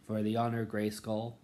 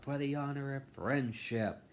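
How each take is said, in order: First: Proud, ringing battle cry; heroic transformation call. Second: High, sugary mock cheer; mock a sweet cartoon heroine; bright magical girl. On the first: Retold or imitated. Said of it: "where she goes". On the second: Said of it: "I hope they do not go out".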